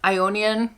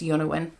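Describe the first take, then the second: First: The name sounds like 'ionian'. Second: The name sounds like 'yonawin'. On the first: The speaker calls it wrong. "that's not how you pronounce that" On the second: The speaker calls it right. "it's Yonawin"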